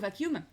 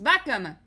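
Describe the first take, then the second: First: The word has its standard English pronunciation. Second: The word is deliberately pronounced in a distorted way.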